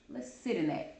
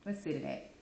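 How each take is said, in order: First: Soft pause. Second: Soft and low. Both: Real, not acted.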